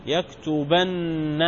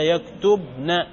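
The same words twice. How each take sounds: First: يكتبن drawn out as yaktubanna, open b, long nn; doubled final nun. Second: يكتبن slowly as yaktub-na, closed b; single nun, still ba. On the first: Teacher contrasting two nuns, يكتبن as yaktubanna. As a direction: say يكتبن slowly with a held double n. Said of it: "مشددة". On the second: Teacher contrasting two nuns, يكتبن as yaktubna. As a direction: say يكتبن with a stop on b, then short -na. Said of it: "وهذا". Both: Shown as a demonstration.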